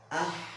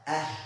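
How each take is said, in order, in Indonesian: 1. Bunyi h-nya kasar, dibuat lebih tinggi di tenggorokan. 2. Bunyi h-nya lembut, dibuat rendah di tenggorokan. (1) "dia larinya ke H, ya. Jadi ah, salah" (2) "Tapi ah"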